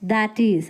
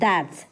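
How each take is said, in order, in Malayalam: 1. ഇത് രണ്ട് പൂർണ്ണമായ വേറിട്ട വാക്കുകളായാണ് പറയുന്നത്. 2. ഇത് ചെറുതായ ഒരു ചുരുങ്ങിയ ഒറ്റ വാക്കായാണ് പറയുന്നത്.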